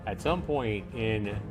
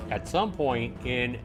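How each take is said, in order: Both takes have the same delivery.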